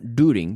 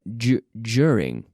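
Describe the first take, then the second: First: The word starts with a plain 'doo' sound. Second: The word starts with a 'dyoo' sound. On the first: The speaker calls it wrong. "not during" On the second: The speaker calls it right. "but du- during"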